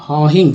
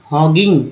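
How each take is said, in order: First: हॉहिंग said with an h in place of the g; teacher correcting to हॉहिंग; corrected reading. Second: हॉगिंग said with a hard g, the wrong reading; teacher's wrong take हॉगिंग; mistaken hogging. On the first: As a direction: fix it to हॉहिंग. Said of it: "sorry". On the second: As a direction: slip into हॉगिंग before correcting. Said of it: "हॉहिंग, sorry". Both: Shown as a demonstration.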